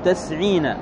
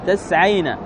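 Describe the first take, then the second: First: The sound before the y is not 'a'. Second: The sound before the y is 'a'. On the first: The speaker calls it wrong. "ما تقول تسعين، هذا خطأ" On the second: The speaker calls it right. "يكون ما قبل الواو مفتوح"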